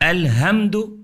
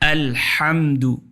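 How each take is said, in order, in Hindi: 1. h एक हल्की, नरम साँस है। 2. h तनावपूर्ण है और गले के बीच से निकलता है।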